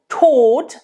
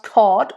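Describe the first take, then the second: First: The O vowel is closed. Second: The O vowel is open. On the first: The speaker calls it right. "Now that's a closed O" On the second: The speaker calls it wrong. "not Tod or something"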